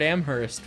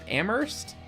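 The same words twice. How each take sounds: First: The H in the middle is clearly pronounced. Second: The H in the middle is silent. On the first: "with an emphasis on the H" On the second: "it's a silent H in Amherst?"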